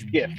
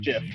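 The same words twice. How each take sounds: First: The word begins with a hard G sound. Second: The word begins with a J sound. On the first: The speaker calls it right. "It's GIF" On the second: The speaker calls it wrong. "not GIF. Whoever says GIF is thinking about peanut butter"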